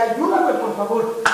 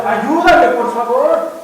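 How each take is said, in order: First: Said in the usual way. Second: Desperate plea. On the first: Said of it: "estaba desesperado y le dice". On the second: Retold or imitated. Pedro sinking, crying out loudly to Jesus. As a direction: beg as if drowning. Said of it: "le pide al Señor Jesús".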